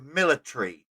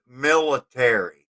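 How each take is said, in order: First: It is said in a British-style pronunciation. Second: It is said in an American-style pronunciation. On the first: It marks a non-American writer or speaker. "or laboratory or military instead of" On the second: It is the usual American form. "instead of military"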